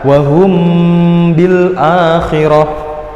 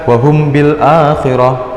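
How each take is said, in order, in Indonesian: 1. Huruf m dilunakkan, bersuara sengau, dan ditahan lebih lama. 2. Huruf m dibaca dengan jelas dan singkat. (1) "Jadi harus dibaca" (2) "jangan dibaca biasa"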